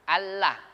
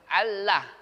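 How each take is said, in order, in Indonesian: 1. Bunyi n menyatu dengan l. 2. Bunyi n menyatu dengan l.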